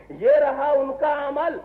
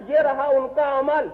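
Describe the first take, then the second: First: یہ رہا ان کا عمل said slowly, each word weighed; slow the repeat down to drive it home; sermon repeat, slowed for weight; slower emphatic repeat. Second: Said in the usual way. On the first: Shown as a demonstration. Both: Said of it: "repeated for emphasis".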